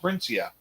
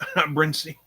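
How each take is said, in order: First: The name ends with an extra 'ah' syllable. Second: The name ends cleanly on an 'ee' sound. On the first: The speaker calls it wrong. "I pronounced it Brisnia or Brincia" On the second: The speaker calls it right. "It's Brincy. That's what it is"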